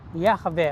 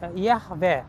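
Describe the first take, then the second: Both takes have the same delivery.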